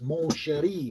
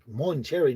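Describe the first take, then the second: First: The name is said the French way, Mon Chéri. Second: The name sounds like the English word Monterey. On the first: The speaker calls it right. "it's Mon Chéri" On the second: The speaker calls it wrong. "it's like Monterey. No"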